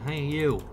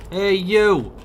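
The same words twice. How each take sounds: First: Said in the usual way. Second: Loud, higher call of Hey, you!; shouting hey you at a stranger. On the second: Real, not acted. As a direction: yell it across at him. Calling out to game character.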